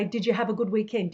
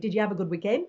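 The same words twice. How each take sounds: First: Fast, run into one word; "Did you have a good weekend" squashed fast into one word; said quickly. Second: Said in the usual way. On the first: Shown as a demonstration. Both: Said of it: "Australians when they say".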